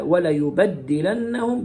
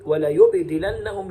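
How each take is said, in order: First: ولا يبدلنهم as "wa-la-yubaddilannahum"; open b, doubled d. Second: ولا يبدلنهم as "wa-la-yubdilannahum"; vowelless b, light d. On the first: Teacher shows Hafs's form, ولا يبدلنهم said "yubaddilannahum". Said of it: "بفتح الباء وتشديد الدال". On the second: Teacher shows Shu'ba's form, ولا يبدلنهم said "yubdilannahum". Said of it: "سكون الباء وتخفيف الدال". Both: Shown as a demonstration.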